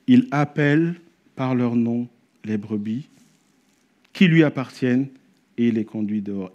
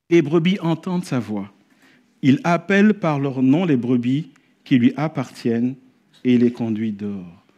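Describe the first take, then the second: First: Each phrase set apart by pauses; slow emphatic rereading. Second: Said in the usual way. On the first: Shown as a demonstration. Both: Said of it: "J'aimerais m'arrêter là-dessus".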